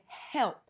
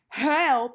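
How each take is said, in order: First: The h sound at the start is unvoiced. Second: The h sound at the start is voiced. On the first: The speaker calls it right. "It's unvoiced" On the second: The speaker calls it wrong. "you're not saying help"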